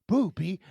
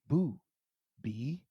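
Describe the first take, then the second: First: It is said fast, run together. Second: It is said slowly, as two words.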